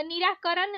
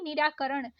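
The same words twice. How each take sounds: First: निराकरण ending in plain न; wrong dental N. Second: निराकरण ending in curled-tongue ण; correct retroflex ण. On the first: Teacher showing learners the mistake, dental-N निराकरण. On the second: Teacher correcting learners, retroflex निराकरण. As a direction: curl back for ण in निराकरण. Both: Shown as a demonstration. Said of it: "नहीं".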